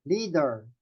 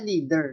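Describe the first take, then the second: First: "Leader" as LEE-dar, with an open A; A-sound ending. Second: "leader" as LEE-der, with an er ending; English-style ending. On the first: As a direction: open the last vowel of "Leader" to ah. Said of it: "ang sounds niya ay A". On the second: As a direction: close the end of "leader" on a neutral er. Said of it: "Hindi siya leader". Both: Shown as a demonstration.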